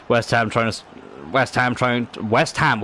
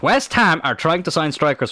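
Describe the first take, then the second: First: Stumbling false starts on "West Ham trying"; halting, restarting after "West Ham"; tongue-tied. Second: "West Ham" punched higher, then fluent; deliberate, raised "West Ham" after a stumble; corrected retake. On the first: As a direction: trip over "trying" and break off. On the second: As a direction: restart firmly on "West Ham" and get through it. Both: Real, not acted. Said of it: "Why can't I speak English?".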